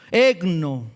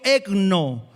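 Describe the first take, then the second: First: Ekno said with the stress on the final O; teaching the Greek word Ekno, accent on the last O. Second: Said in the usual way. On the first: Shown as a demonstration. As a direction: land firmly on the O of Ekno. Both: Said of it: "De nuevo, la tilde en la O".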